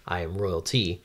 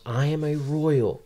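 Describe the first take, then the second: First: Said in the usual way. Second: Higher-pitched proclamation without much volume; mild mock yell. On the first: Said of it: "No, sorry". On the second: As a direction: declare it high, a restrained yell. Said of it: "and she yells".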